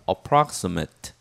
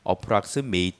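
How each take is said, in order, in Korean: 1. 'prox' 음절에 강세가 있어요. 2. 'prox' 음절에 강세가 없어요. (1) "ra의 강세가 있기 때문에 ... Approximate 이렇게 읽어주시기 바랍니다" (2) "approximate라고 읽으면 안 되고"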